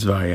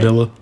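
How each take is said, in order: First: The first vowel is 'ah', like 'vah-yeh'. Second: The first vowel is 'ee', like 'villa'. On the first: The speaker calls it right. "It's Valle. I know it's Valle" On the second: The speaker calls it wrong. "he likes to say Villa"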